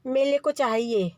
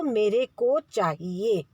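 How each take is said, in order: First: Mele for mere, r turned to l; child's मेले instead of मेरे; lisping baby talk. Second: Slow, clear मेरे with a proper r; careful correct model. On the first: Retold or imitated. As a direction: imitate a toddler saying मेले with an l. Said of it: "बच्चा बोलता है". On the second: Shown as a demonstration. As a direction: spell it out slowly for the child. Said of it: "ऐसे बोलो".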